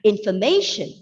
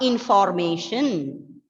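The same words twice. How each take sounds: First: The second syllable is reduced to a weak schwa. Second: The second syllable keeps a full vowel sound. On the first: The speaker calls it right. "we use two schwa sounds along with the e short sound in the first syllable, and the word is pronounced as information" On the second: The speaker calls it wrong. "It's not information"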